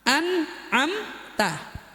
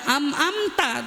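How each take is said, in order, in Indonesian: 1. Suku kata pertama berakhir dengan bunyi n. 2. Suku kata pertama berakhir dengan bunyi m. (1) "Jadi ketika alif sama nun, an" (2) "Jangan am-amta, tuh keseringan"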